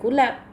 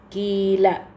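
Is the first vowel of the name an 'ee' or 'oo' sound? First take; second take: oo; ee. First: The first vowel is an 'oo' sound. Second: The first vowel is an 'ee' sound. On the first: The speaker calls it wrong. "bukan kulab" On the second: The speaker calls it right. "Kilab bacanya"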